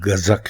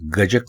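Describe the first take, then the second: First: The middle consonant is a z sound. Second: The middle consonant is a j sound. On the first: The speaker calls it right. "बल्कि गज़क है, यानी आप इसको जीम से नहीं लिखेंगे बल्कि आप इसको जे से" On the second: The speaker calls it wrong. "ये लफ्ज़ गजक नहीं"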